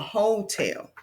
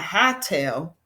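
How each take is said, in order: First: The first vowel is a long 'oh' sound. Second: The first vowel is a short 'ah' sound. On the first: The speaker calls it right. "we say oh" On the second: The speaker calls it wrong. "we can't say huh, ah. Not hotel"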